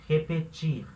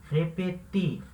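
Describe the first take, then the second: The two takes are said the same way.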